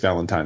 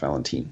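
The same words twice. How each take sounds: First: The name sounds like Valentine's Day. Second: The name sounds unlike Valentine's Day. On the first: The speaker calls it right. "he was kindly enough to say it's Valentine" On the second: The speaker calls it wrong. "not Valentine"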